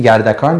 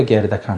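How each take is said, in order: First: First vowel A, "گردکان" as gardakan; pronunciation variant. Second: First vowel E, "گردکان" as gerdakan; pronunciation variant. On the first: Teacher checking which pronunciation the listener used, variant gardakan. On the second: Teacher checking which pronunciation the listener used, variant gerdakan. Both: Shown as a demonstration. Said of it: "شما گفتین گردکان یا گردکان".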